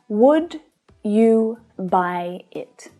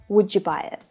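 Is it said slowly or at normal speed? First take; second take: slowly; normal speed. First: It is said slowly, words apart. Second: It is said at regular conversational speed.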